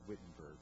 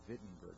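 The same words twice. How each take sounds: First: The name begins with a W sound. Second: The name begins with a V sound. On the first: The speaker calls it wrong. "not Wittenberg" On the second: The speaker calls it right. "It's a V, right?"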